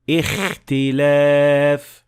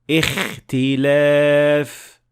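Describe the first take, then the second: No difference in how they are said.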